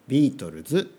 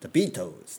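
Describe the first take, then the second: First: The name is said with Japanese-style pronunciation. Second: The name is said with English-style pronunciation. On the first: The speaker calls it right. "ビートルズというふうに" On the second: The speaker calls it wrong. "ビートルズじゃなくて"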